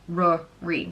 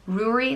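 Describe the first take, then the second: First: It sounds like 'rory'. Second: It sounds like 'roo-ree'. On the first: Other regions prefer this form. "or Rory" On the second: Some regions prefer this form. "like brewery, but without the B"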